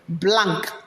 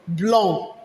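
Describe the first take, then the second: First: It ends with a clear k sound. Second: It ends in a nasal vowel without k. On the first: The speaker calls it wrong. "It's not pronounced as what?" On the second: The speaker calls it right. "It's pronounced as what?"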